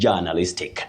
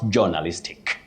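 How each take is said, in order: First: The first vowel is a long central 'uh'. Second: The first vowel is not a long central 'uh'. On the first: The speaker calls it right. "J with what we technically call the mid-central sound uh, the long one" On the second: The speaker calls it wrong. "not journalistic"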